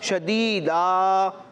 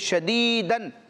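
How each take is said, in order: First: The word ends with a long 'a' sound. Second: The word ends with an 'an' nasal sound. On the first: The reader stops on this word. "وقف کی حالت میں الف سے بدلے گی" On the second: The reading continues without stopping on the word. "آخر میں دو زبر کی تنوین ہے"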